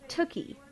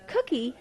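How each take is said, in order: First: The word begins with a T sound. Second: The word begins with a K sound. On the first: The speaker calls it wrong. "he would say tookie" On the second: The speaker calls it right. "instead of saying cookie"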